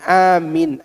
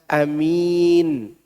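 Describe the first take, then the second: First: The i vowel is kept short. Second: The i vowel is held long. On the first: The speaker calls it wrong. "Bukan Amin" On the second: The speaker calls it right. "I-nya panjang"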